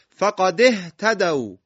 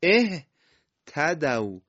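First: فقد اهتدوا read slowly in one breath, the hamza of اهتدوا silent and swallowed into فقد; joined recitation. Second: اهتدوا said slowly alone, opening with a clear "e" as in "ehtadu"; starting with hamza. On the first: Teacher recites the verse to students, slow linked Quranic reading. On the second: Teacher shows students how to start the word, slow clear demo. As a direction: begin اهتدوا with a kasra-voiced hamza, drawn out. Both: Shown as a demonstration.

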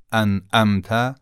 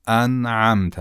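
First: "انعمت" with a second glottal hit after the noon; wrong hamza. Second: "انعمت" with a soft ayn after the noon; soft second sound. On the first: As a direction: strike the vowel after ن in "انعمت". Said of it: "غلط خواهد بود". («انعمت» با همزه به جای عین) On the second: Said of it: "دومیشو باید نرم بگیم". («انعمت» با عین نرم) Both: Shown as a demonstration.

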